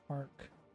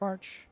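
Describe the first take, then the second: First: The word ends with a k sound. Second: The word ends with a ch sound. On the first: "Is this arc?" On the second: "Is this arch?"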